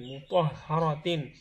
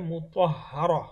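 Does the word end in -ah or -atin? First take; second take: -atin; -ah. First: The word ends with the full -atin ending. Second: The word ends with a short -ah ending. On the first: The reading continues into the next word. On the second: The reading stops on this word.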